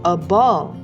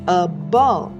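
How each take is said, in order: Both takes have the same delivery.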